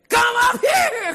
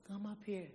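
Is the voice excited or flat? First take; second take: excited; flat. First: It is said loudly, with excitement. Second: It is said flatly, without excitement. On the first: The speaker calls it right. "I mean, with excitement" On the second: The speaker calls it wrong. "Is that how it went? No"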